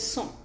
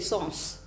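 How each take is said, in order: First: It is said with the French pronunciation. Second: It is said with an anglicized pronunciation. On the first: The speaker calls it right. "it's pronounced as sans" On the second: The speaker calls it wrong. "those who are not very much acquainted with the language would say sans"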